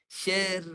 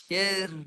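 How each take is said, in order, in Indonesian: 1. Bunyi r-nya tipis dan ringan. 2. Bunyi r-nya tipis dan ringan.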